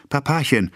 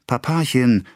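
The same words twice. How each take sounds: First: Put-on higher child's plea falling off; pleading child. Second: A hint of a small daughter tugging, higher; pleading child. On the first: Little daughter pleading with her father again, higher. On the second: Little daughter tugging her father's coat, mildly pleading. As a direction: coax him gently. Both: A narrator's reading. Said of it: "Athalie zupfte ihn am Rock".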